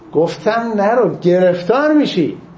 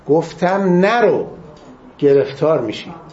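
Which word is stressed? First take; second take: گرفتار; نرو. First: The stress falls on the word گرفتار. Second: The stress falls on the word نرو. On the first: It stresses the trouble that would follow. "تأکیدش به گرفتاره" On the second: It stresses what the warning said not to do. "تأکیدشون نرو"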